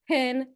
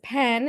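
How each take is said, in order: First: The vowel sounds like the i in pin. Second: The vowel is a clear short e.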